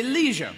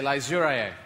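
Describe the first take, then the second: First: Leisure rhymes with seizure; American pronunciation. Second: Leisure stretched slowly into a silly drawn-out LEH-zhur; mock British pronunciation. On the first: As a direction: say leisure with a long ee, LEE-zhur. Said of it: "you say". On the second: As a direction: say leisure the posh British way, dragging it out. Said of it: "we say". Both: Shown as a demonstration.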